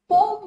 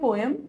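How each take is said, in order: First: The word is squeezed into one syllable. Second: The word is said with two syllables. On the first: The speaker calls it wrong. "पोम तो बिल्कुल गलत है" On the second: The speaker calls it right. "जो आप बोलते आए हैं पोएम, यही बोलिए"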